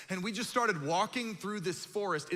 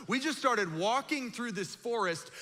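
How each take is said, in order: First: Said in the usual way. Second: Higher, lingering on "We just started walking"; mock dramatic retelling. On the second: Shown as a demonstration. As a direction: say it again as if hearing how bad it sounds. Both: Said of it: "It sounds worse when you say it out loud".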